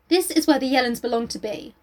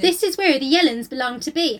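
First: It is read in the speaker's ordinary accent. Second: It is read in a West Country accent.

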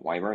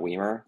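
First: The name does not rhyme with wiener. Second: The name rhymes with wiener. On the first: This is how the player's name is really said. The speaker calls it right. "I think you actually say Joey Weimer's name, like Weimer" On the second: This is the version that makes the pun work. The speaker calls it wrong. "not Weimer"

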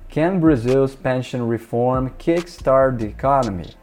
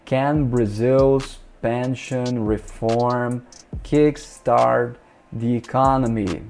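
First: The sentence is read at a normal pace. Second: The sentence is read at a slower pace.

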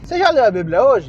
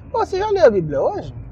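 First: It is asked in a threatening tone. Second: It is asked as a casual, friendly question.

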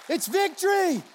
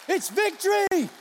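The two takes are said the same way.

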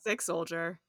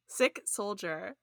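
First: The words are articulated casually, without careful diction. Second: The words are articulated crisply, with careful diction. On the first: The speaker calls it wrong. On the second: The speaker calls it right. "with the diction"

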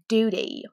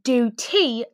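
First: The T is softened rather than crisply pronounced. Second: The T is pronounced crisply and clearly. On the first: The speaker calls it wrong. "not duty" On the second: The speaker calls it right. "you have to pronounce the T. You say do T"

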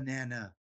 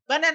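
First: It is said in the speaker's ordinary voice. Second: It is said in a squeaky cartoon-character voice.

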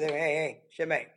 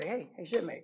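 First: The greeting sounds curt and brushing off. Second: The greeting sounds warm and encouraging. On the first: The speaker is refusing the request. "So it depends on the tone" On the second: The speaker is offering help. "when I would talk to younger sailors"

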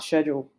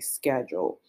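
First: It is said in a non-American accent. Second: It is said in an American accent.

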